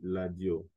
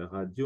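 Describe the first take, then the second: First: The word begins with an L sound. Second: The word begins with an R sound. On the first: "En lingala, la lettre R se prononce L. Radio, on dit ladio" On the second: "la lettre R se prononce L"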